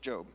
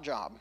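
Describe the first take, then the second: First: The name rhymes with 'robe', a long vowel. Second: The name rhymes with 'rob', a short vowel. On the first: The speaker calls it right. "It's Job" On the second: The speaker calls it wrong. "Not Job"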